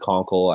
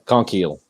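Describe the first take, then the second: First: The last syllable is a short, weak 'kul'. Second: The last syllable is a long 'keel'. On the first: "You can say conkle" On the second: "here's how I like to say it"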